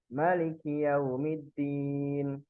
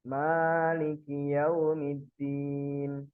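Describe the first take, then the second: First: The first vowel of Maliki is kept short. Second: The first vowel of Maliki is drawn out long. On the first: "bisa pendek" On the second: "Bisa panjang"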